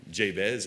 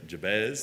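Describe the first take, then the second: First: Jabez as JAY-bez; first pronunciation. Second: Jabez as juh-BEZ; alternative pronunciation. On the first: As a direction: say Jabez with a long "ay" in the first syllable. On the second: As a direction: say Jabez with a reduced first syllable, weight on "bez". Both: Shown as a demonstration. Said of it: "however you pronounce".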